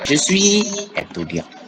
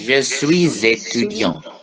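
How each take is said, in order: First: Suis and étudiant are said without a linking z. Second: A z sound links suis to étudiant.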